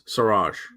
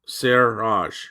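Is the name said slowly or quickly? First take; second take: quickly; slowly. First: The name is said quickly, syllables run together. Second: The name is said slowly in two syllables. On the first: "if you say it quickly" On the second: "if I put it into two, two syllable"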